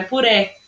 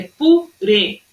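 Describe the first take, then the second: First: PURÉ with open final é, "poo-REH"; wrong open E. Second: PURÊ in two slow syllables, closed ê. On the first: Teacher showing pupils what not to say, PURÉ with open é. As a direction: end PURÉ on a wide open é. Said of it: "Não é puré". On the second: Teacher giving pupils the right form, slow PURÊ with closed ê. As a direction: split PU-RÊ, closing the final ê. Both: Shown as a demonstration.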